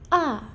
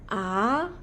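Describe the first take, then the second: First: The pitch falls sharply and directly. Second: The pitch rises like a question. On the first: "Jatuh seperti orang marah" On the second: "Nada dua naik seperti orang bertanya"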